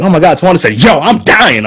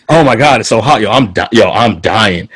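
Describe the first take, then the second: First: High-pitched mocking imitation of her; exaggerated mimicking. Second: Said in the usual way. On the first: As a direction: overdo it high and swooping, like a bad impression. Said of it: "they would repeat what I just said as me, quote unquote". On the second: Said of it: "I didn't say any of that that way at all".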